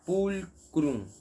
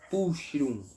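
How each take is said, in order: First: The middle consonant is a hard K sound. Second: The middle consonant is a soft ch sound. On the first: The speaker calls it right. "C H em latim é K. É um som de K" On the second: The speaker calls it wrong. "Então não é pulchrum"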